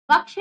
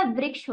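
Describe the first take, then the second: First: वृक्ष said as vaksh, without ri; वृक्ष missing its ri vowel; wrong pronunciation. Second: वृक्ष said as vriksh; वृक्ष with a clear r in it; correct pronunciation. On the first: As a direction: drop the r from वृक्ष, giving vaksh. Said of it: "नहीं होता". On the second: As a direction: sound the ri after v in वृक्ष. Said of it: "होता है". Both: Shown as a demonstration.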